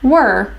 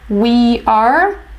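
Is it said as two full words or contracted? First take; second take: contracted; two words. First: It is said as one contracted syllable. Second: It is said as two full words.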